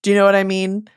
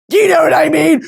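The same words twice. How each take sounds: First: Said in the usual way. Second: Loud, high, pleading do you know what I mean; exasperated shout. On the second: Acted. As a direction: belt it out in mock exasperation. Repeats the question louder.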